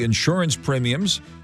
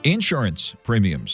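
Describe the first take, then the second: First: It is said in a standard, non-Southern accent. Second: It is said in a Southern accent.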